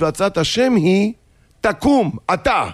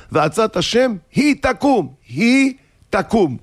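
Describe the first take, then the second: First: היא held, then a break and high תקום; pause before תקום. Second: High insistent היא תקום, read as one phrase; stress on היא. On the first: Wife correcting the verse, pause after היא, commanding תקום. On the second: Husband quoting scripture at his wife, היא joined insistently to תקום. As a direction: punch היא תקום together as "she gets up". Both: Acted. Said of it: "לא ככה כתוב".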